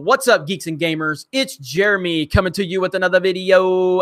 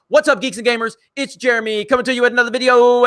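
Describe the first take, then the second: First: It is said at a normal pace. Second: It is said very fast.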